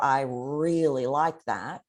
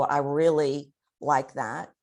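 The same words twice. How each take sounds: First: "really" stretched extra long with feeling; strongly elongated REALLY. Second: "really" drawn out for emotion; elongated REALLY. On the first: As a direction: draw "really" right out, slowly. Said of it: "Elongation shows a degree of emotion". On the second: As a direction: stretch the word "really" slowly. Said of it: "which is degrees of emotion". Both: Shown as a demonstration.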